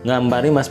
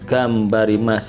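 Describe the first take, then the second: First: The word begins with an ng sound. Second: The word begins with a hard g sound. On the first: The speaker calls it wrong. "bukan ngambarimas, bukan ya, keliru" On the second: The speaker calls it right. "G-nya ini G"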